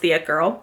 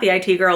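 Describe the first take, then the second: First: 'It' is said as one ordinary word. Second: 'It' is spelled out as two separate letters. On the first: The speaker calls it right. "it's The It Girl" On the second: The speaker calls it wrong. "I always want to say The I T Girl. It's not"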